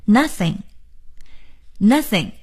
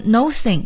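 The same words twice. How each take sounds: First: "nothing" slowly, first syllable like nuh; correct nothing pronunciation. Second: "nothing" said as no-thing; mispronounced nothing. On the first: Teacher insisting on the right way, "nothing" as slow nuh-thing. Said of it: "一定要念成nothing". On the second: Teacher warning students off a mistake, "nothing" as no-thing. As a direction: give "nothing" a long "no" first syllable. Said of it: "我们不能念成nothing". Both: Shown as a demonstration.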